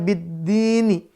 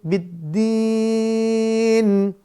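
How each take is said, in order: First: The word ends with an added vowel sound. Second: The word ends on a bare consonant. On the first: This is the original form without stopping. "Aslinya biddini" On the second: The reciter stops at this word. "Maka di sini biddin"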